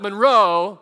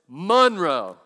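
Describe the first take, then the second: First: The stress is on the second syllable. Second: The stress is on the first syllable. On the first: The speaker calls it wrong. "with the accent on the row" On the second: The speaker calls it right. "It's Monroe, right? M-U-N"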